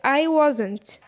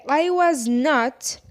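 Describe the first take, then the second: First: The words are contracted and said fast. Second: The words are said in full, uncontracted. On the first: "resume it to speak fast like" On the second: "you can say I was not"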